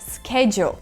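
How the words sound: It is said in an American accent, starting 'sk'.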